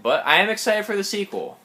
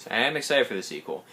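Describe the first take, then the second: First: Higher, eager burst; pitched-up excitement for the sequel; excited. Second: Said in the usual way. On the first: Shown as a demonstration. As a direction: sell the excitement up high.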